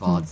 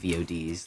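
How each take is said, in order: First: The acronym is said as one word. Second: The acronym is spelled out letter by letter. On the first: The speaker calls it right. "I think if it spells a word" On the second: The speaker calls it wrong. "not V O Ds. That's ridiculous"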